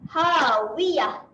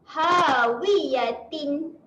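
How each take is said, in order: First: The word ends with a silent-vowel h sound. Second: The word ends with a final n sound. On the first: The reader stops on this word. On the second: The word is read without stopping.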